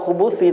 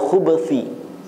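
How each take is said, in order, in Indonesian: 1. Ada vokal yang terdengar tepat setelah b. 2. Tidak ada vokal yang terdengar tepat setelah b. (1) "bukan minal khubuthi" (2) "Ba-nya disukunkan"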